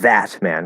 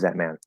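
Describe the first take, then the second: First: The word that is stressed. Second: The word that is unstressed. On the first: The speaker calls it wrong. "not that man, because then it's stressed" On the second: The speaker calls it right. "if the word was unstressed"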